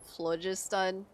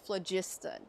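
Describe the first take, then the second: First: The stress is on the first syllable. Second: The stress is on the second syllable. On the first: The speaker calls it wrong. "I did call it phlogiston" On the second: The speaker calls it right. "the um emphasis is on the second syllable"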